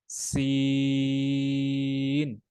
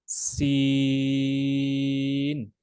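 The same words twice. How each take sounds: No difference in how they are said.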